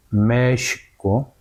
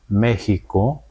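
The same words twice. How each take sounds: First: "México" slow, long first vowel and sh sound, "Mee-shi-co"; Nahuatl long vowel. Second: "México" with Spanish stress on the first syllable and a j sound, "MÉ-ji-co". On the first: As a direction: draw out the "me" in "México" and say x as sh. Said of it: "Pues así podemos recuperar". ("México" despacio, con la primera vocal larga y la x como sh, "Meeshico") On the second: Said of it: "poniendo con acento". ("México" a la española, con acento en la primera y con jota) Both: Shown as a demonstration.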